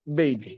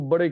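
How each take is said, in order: First: It is said as one syllable, like 'bed'. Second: It is said as two syllables, like 'ba-dey'. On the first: The speaker calls it right. "Pronunciation है बेड" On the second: The speaker calls it wrong. "जिसको बड़े कह रहे थे"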